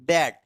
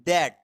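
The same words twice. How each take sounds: Both takes have the same delivery.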